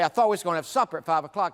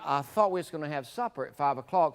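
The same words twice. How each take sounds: First: It is said in a harsh, sharp tone. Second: It is said in a soft, gentle tone. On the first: The listener would likely take offense. The speaker calls it wrong. "that's pretty harsh" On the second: The listener might accept the remark. The speaker calls it right. "said it a lot softer"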